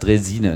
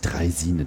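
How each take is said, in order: First: The first syllable has a plain 'e' vowel. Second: The first syllable has an 'ei' diphthong. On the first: The speaker calls it right. "Auf jeden Fall nennt man das Dresine" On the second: The speaker calls it wrong. "nicht Dreisine"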